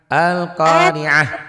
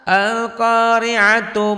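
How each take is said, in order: First: The word ends in a soft h sound. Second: The word ends in a t sound plus vowel. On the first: The reading stops on this word. "kalau dihentikan bunyinya jadi ha" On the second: The reading continues past this word. "kalau nggak dihentikan tetap tak"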